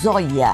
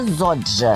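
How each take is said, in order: First: The middle consonant is a soft 'y' sound. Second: The middle consonant is a 'dj' sound. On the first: This is the original Romanian form of the name. "O nome original é muito mais simples" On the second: This is the Spanish-style reading of the name. "ela pronunciava o Y como, como se fosse D J"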